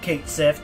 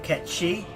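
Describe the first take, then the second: First: The name sounds like 'kate sith'. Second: The name sounds like 'ket-chee'. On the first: This follows the spelling, as most people say it. "everyone pronounces it Kate Sif" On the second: This follows the original mythological name. "the mythological figure that the robot cat is based on is called Ketchi"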